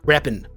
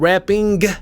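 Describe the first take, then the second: First: The word ends with a plain 'n' sound. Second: The word ends with a full 'ng' sound. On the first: "we're going to take it from ing to in" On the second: "instead of doing that"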